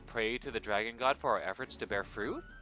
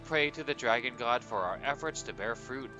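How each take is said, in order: First: The voice rises at the end like a question. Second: The voice falls at the end like a statement. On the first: It is asked as a question. The speaker calls it right. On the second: It is a plain statement of intent. The speaker calls it wrong.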